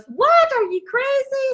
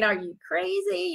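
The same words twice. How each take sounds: First: Very high-pitched mock outrage; high, incredulous retold scream; mock parental screaming. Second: Soft, higher-pitched questioning; hushed, high self-questioning; inner voice of doubt. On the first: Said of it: "expected a lot of screaming". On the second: Retold or imitated. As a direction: lightly act out a doubting thought, softly. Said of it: "my mind was saying".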